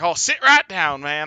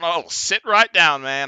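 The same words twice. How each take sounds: First: It is said in a Southern accent. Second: It is said in a neutral accent.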